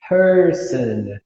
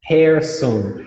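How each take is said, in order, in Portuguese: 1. A primeira vogal soa como 'er', terminando em 'an'. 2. A primeira vogal soa como 'air', terminando em 'on'. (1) "não vai falar person e sim person" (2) "tá errado no começo e tá errado no final, porque daí tu usou air no lugar de er e on no lugar de an"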